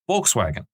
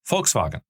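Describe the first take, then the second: First: It is said with an English pronunciation. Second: It is said with a German pronunciation.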